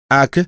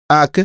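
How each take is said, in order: First: Small uncertain creature voice, pitched higher; doubtful. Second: Higher small creature voice, now surer; more assured. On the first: Oy hesitantly recalling his lost friend, doubtful. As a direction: ask it as if barely remembering. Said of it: "sur un ton dubitatif". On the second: Oy finally recalling his friend, more sure. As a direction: say it with growing confidence. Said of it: "avec un peu plus d'assurance". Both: Acted.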